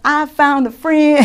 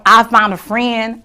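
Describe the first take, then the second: First: Said higher through a laugh; amused, laughing repeat. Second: Said in the usual way. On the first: Real, not acted. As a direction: giggle the words out.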